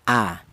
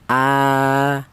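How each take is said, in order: First: The vowel is cut short after one beat. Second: The vowel is held for two beats. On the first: "dibaca pendek" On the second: "dibaca panjang, yaitu satu alif panjangnya atau dua harokat atau dua ketukan"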